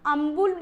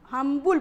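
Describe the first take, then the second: First: Humble with the h dropped; h-less humble. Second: Humble with the h pronounced; sounded h in humble. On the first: Teacher showing the rejected reading, humble without h. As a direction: say "ambul", no h. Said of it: "अम्बुल नहीं पढ़ते हैं". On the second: Teacher showing the modern reading, humble with h. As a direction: put the h on humble. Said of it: "हम्बुल पढ़ते हैं". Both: Shown as a demonstration.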